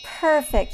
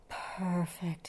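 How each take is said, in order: First: Higher, louder, falling cry of approval; pleased exclamation. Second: Soft, drawn-out lion purr. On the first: Hornbill approves the animals' bed, pleased exclamation. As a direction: call it out, pleased with the work. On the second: Lion settles on the grass bed, purred. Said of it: "he purred". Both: A narrator's reading.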